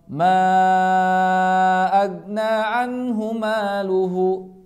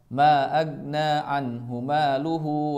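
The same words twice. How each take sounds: First: The marked long vowels are drawn out. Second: The marked long vowels are cut short. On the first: The speaker calls it right. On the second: The speaker calls it wrong. "malah dibaca pendek hanya dua harokat"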